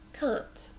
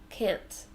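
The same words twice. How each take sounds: First: It is said in an Australian accent. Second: It is said in an American accent. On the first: "So in Australia, these words sound quite different" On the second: "And in America"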